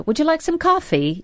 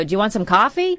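First: "Would you like some coffee?" with a high, lilting British tune; British cadence, not American; British inflection. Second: Said in the usual way. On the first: Shown as a demonstration. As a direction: lift the whole question up, sing-song British. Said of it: "cadence and my inflection is more British". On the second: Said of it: "we would go".

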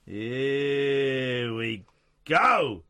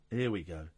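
First: Very slow stretched here we go; drawn-out. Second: Said in the usual way. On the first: Pretend. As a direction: stretch every word out long. Repeating phrase in drawn-out voice.

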